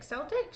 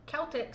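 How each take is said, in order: First: "Celtic" starting with an S sound; soft-C pronunciation. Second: "Celtic" starting with a K sound; hard-K pronunciation. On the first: Reader unsure of the word, "Celtic" with soft C, as a question. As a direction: say "Celtic" as SEL-tik, higher, questioning. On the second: Reader trying out an unfamiliar word, "Celtic" with hard K. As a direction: say "Celtic" as KEL-tik, falling. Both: Real, not acted. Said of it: "don't really know how to pronounce that word".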